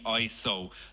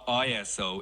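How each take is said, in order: First: It is pronounced as a single word. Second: It is spelled out letter by letter. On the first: The speaker calls it right. "I should be saying I S O ... It's actually a word" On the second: The speaker calls it wrong. "not I S O"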